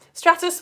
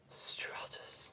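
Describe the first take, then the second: First: Said in the usual way. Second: Dull hushed whisper; boring, blanketed. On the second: Shown as a demonstration. Teacher demonstrating a boring blanket cloud, bored whisper. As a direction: whisper it like a flat blanket layer. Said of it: "really boring, like, blanket layered one".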